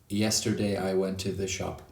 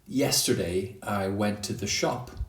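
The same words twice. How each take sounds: First: All the words get the same equal stress. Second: Some words are stressed more than others. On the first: The speaker calls it wrong. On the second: The speaker calls it right.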